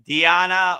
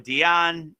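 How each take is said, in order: First: The word ends with a final vowel sound. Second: The word ends without a final vowel sound. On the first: It means meditation in some regions of India. "Some people say it with the A" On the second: It means meditation in other regions of India. "Some people drop the A"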